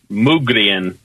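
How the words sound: The name is said with a Swedish pronunciation. "I guess the Swedes pronounce it Mugrien"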